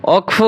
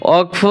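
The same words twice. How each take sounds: Both takes have the same delivery.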